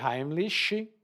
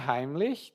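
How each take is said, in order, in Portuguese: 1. O nome é dito com sons do português brasileiro. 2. O nome é dito do jeito original, com pronúncia estrangeira. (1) "na pronúncia brasileira" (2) "A pronúncia Heimlich"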